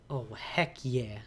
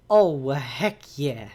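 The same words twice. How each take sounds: First: Soft, slow, murmured to self; quiet. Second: Louder, slow, drawn-out cheer; excited. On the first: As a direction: say it under your breath, slowly. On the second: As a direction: cheer it out loud, stretching it. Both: Real, not acted.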